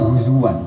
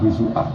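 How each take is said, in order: First: The middle consonant is a w sound. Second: The middle consonant is a glottal stop. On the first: It follows the Quraysh dialect. "pakai wawu" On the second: It follows standard Arabic.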